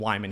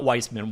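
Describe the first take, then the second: First: The name has no s sound in the middle. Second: The name has an s sound in the middle. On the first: The speaker calls it right. "So not Weissman, Wyman" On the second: The speaker calls it wrong. "I said it wrong last time"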